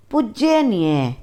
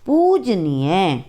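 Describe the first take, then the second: First: पूज्यनीय with an extra य, pud-je-nie; wrong form. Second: पूजनीय slow, no य; correct pronunciation. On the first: Teacher shows students the wrong word, extra y sound. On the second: Teacher gives students the right word, slow and clear. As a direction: say पूजनीय slowly as पू-ज-नी-य. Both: Shown as a demonstration. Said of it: "पूज्यनीय नहीं होता".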